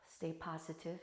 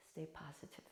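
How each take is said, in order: First: Said in the usual way. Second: Much softer "stay positive"; a quiet parting wish; soft sign-off. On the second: Real, not acted. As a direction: ease it out gently, quietly.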